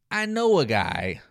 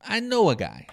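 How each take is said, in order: First: Coy sarcastic aside. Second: "I know a guy" repeated higher, with a knowing nudge; higher sarcastic repeat. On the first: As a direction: drop it casually as if hiding the truth. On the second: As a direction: lift it as a wink to the crowd. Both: Retold or imitated. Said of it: "Paul is being sarcastic".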